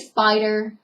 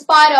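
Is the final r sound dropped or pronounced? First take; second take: pronounced; dropped. First: The final syllable ends with an r sound. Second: The final syllable ends in an ah sound. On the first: "We don't say spider" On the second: "we drop the E R on everything, um, and we put an A"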